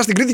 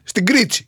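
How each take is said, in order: First: Said in the usual way. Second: Put-on Cretan accent, Κρήτη with its t softened to "ts". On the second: Comic correcting himself into his island's speech, Cretan accent. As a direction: say Κρήτη as "Kritsi", Cretan-style. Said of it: "Εμείς τα ακούμε αυτά στην Κρήτη".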